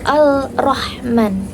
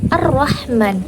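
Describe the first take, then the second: First: A clear 'l' is pronounced before the 'r'. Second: The 'l' merges into a doubled 'r' sound. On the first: The speaker calls it wrong. "bukan Al-Rahman" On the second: The speaker calls it right. "Bacanya adalah Ar-Rahman"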